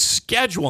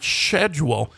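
First: The word begins with an 'sk' sound. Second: The word begins with an 'sh' sound. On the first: The speaker calls it right. "it's not a silent C. It's schedule" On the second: The speaker calls it wrong. "not schedule"

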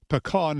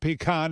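First: Pecan is pronounced another regional way. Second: Pecan is pronounced the Northeastern way. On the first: "as some say" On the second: "as we say in the Northeast"

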